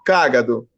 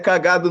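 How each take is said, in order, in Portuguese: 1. A tônica está na primeira sílaba. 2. A tônica está na segunda sílaba. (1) "é cágado" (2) "Não é cagado, não"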